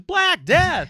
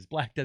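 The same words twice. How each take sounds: First: Huge high booming announcer call; loud, high mock announcer shout. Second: Said in the usual way. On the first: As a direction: belt the band name like an arena emcee. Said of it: "He goes". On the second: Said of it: "That's the name of the band".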